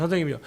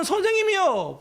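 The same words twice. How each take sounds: First: Said in the usual way. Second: High, pleading call of teacher; high desperate plea to the teacher; high crying out. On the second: Retold or imitated. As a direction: cry it out high and long, pleading. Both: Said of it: "불렀단 말이에요".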